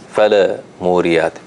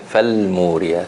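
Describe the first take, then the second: First: The lam bounces with an added vowel sound. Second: The lam closes cleanly with no added vowel. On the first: The speaker calls it wrong. "so we don't say, for instance, fala muriyat" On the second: The speaker calls it right. "We say fal muriyat"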